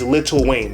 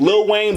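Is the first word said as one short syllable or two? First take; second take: two; one. First: The first word is two full syllables, 'little'. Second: The first word is one short syllable, 'lil'. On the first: This is how outsiders in the entertainment industry say it. "in Hollywood it's [name]" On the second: This is how the artist's own community says it. "It's actually [name]"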